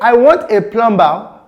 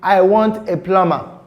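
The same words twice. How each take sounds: First: The b in plumber is pronounced. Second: The b in plumber is silent. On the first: The speaker calls it wrong. "which is the wrong pronunciation" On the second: The speaker calls it right. "It should be"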